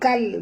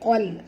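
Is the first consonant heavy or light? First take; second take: light; heavy. First: The first consonant is a light k sound. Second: The first consonant is a heavy, deep q sound. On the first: The speaker calls it wrong. "Qaf tebal, jangan baca kal" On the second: The speaker calls it right. "Qaf tebal ... baca qal"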